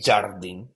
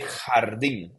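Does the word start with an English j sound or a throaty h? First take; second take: English j; throaty h. First: It starts with an English j sound. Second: It starts with a throaty h sound. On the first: The speaker calls it wrong. "You don't say jardín" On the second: The speaker calls it right. "the J it's pronounced like a H"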